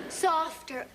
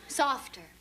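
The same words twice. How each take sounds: The two takes are said the same way.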